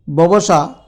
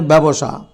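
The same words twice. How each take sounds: First: ব্যবসা said as "bobosha"; spelling pronunciation. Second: ব্যবসা said as "bebosha"; spoken pronunciation. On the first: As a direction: say ব্যবসা with o in the first syllable. (বানান-অনুযায়ী "ববসা" উচ্চারণ) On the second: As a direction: say ব্যবসা with a front first vowel, "byabosha". (প্রচলিত "ব্যাবসা" উচ্চারণ) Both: Shown as a demonstration. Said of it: "উচ্চারণে ব্যবসা".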